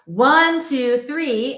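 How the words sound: It is spoken low in the chest voice. "in chest voice"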